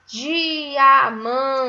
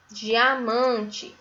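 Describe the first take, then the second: First: "diamante" as a loud, stretched "dii-aa-man-te"; syllable by syllable. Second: Said in the usual way. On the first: Shown as a demonstration. Teacher sounding out a new word for pupils, "diamante" in slow syllables. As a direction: give every beat of "diamante" full length. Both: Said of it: "com a sílaba di".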